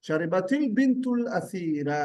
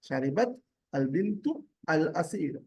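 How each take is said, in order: First: The words are run together, linked across boundaries. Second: Each word is said separately, without linking.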